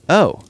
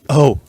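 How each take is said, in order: First: It is said plainly, without heavy breathing. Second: It is said breathily, with heavy breathing. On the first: The speaker calls it wrong. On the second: The speaker calls it right.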